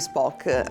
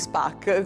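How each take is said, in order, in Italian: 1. Il nome si pronuncia con la vocale 'o'. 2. Il nome si pronuncia con la vocale 'a'.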